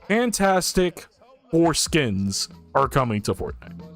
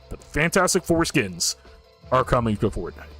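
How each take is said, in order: First: It is said slowly. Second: It is said quickly.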